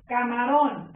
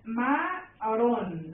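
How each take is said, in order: First: Said in the usual way. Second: CA... MA... RÓN, slow and separated; "Camarón" in three drawn-out beats; split into syllables. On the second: Shown as a demonstration. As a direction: say Camarón one syllable at a time. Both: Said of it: "Lo separo".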